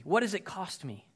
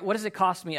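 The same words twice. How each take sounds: First: Said in the usual way. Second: What pressed a bit harder and louder; preacher repeating the question with more push; louder rhetorical repeat. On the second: Shown as a demonstration. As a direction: lean into What, driving the question home.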